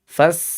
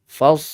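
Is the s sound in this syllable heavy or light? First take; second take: light; heavy. First: The s is light, with the tongue lowered. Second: The s is heavy, with the tongue raised. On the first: The speaker calls it wrong. "Bukan fas... lidahnya itu turun" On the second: The speaker calls it right. "huruf shad itu dia harus dibaca isti'la... sifat tebal atau disebut dengan tafkhim"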